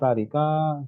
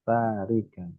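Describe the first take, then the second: First: The vowel after the k is long. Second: The vowel after the k is short. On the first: It refers to two people leaving. "yang panjang kafnya" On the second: It refers to one woman leaving. "kafnya pendek"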